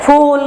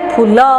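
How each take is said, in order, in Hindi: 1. यह शब्द बिना किसी स्वर के 'l' की ध्वनि पर खत्म होता है। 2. अंतिम 'l' के बाद छोटा 'a' स्वर आता है। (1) "हम क्या कहते हैं?" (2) "ज्यादातर लोग क्या करते हैं? ... हिंदी में फूल नहीं होता है, अ उच्चारण नहीं होता है"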